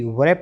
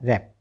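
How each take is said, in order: First: The word begins with a w sound. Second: The word begins with an r sound. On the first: The speaker calls it wrong. "वैप नहीं बोलना है" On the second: The speaker calls it right. "अब आर A P तो रहा रैप"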